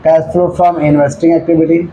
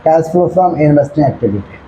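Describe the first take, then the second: First: Drawn out, steady and even; slow dictation. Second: Slow repeated dictation. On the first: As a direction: dictate it slowly, word by word. Teacher dictating heading to students. (धीमी आवाज़ में लिखवाना) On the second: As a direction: repeat it slowly as a check. Teacher repeats dictated heading. (धीरे से दोहराकर लिखवाना) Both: Shown as a demonstration.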